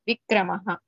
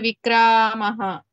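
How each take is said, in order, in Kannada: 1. ಪ್ರತಿ ಸ್ವರವೂ ಹ್ರಸ್ವವಾಗಿಯೇ ಇದೆ. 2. ಒಂದು ಸ್ವರ ದೀರ್ಘವಾಗಿ ಎಳೆಯಲಾಗಿದೆ. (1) "There is no dirghakshara. All are hrasva letters" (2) "It is not Vikramaha"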